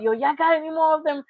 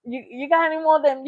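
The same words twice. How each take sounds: First: Quick, slightly higher fiend voice; imitating Dave Chappelle's crackhead. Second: Quick fiend plea, a bit higher; imitating Dave Chappelle's crackhead again. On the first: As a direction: ask twitchy and eager, like a fiend. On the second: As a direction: beg fast like a twitchy fiend. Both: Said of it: "in Dave Chappelle".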